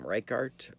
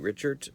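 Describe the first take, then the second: First: The surname begins with a 'rike' sound. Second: The surname begins with a 'rich' sound. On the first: The speaker calls it wrong. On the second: The speaker calls it right.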